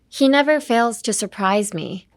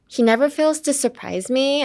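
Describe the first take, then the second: First: The melody falls at the end. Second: The melody rises, Valley Girl style.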